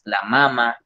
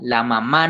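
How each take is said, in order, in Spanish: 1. El acento cae en la primera sílaba. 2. El acento cae en la última sílaba. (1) "Sino glándulas mamarias, la mama" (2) "no le metas esa tilde al final"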